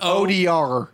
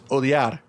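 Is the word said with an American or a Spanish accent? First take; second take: American; Spanish. First: It is said with an American English accent. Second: It is said with a Spanish accent. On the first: "I'll do it like a gringo" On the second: "But the way you pronounce it is odiar"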